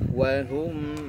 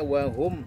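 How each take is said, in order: First: The m sound flows on slightly. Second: The m sound is clipped short. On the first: The speaker calls it right. "Berikan hak tawassutnya, mengalir sedikit" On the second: The speaker calls it wrong. "Jangan hanya dibaca wahum"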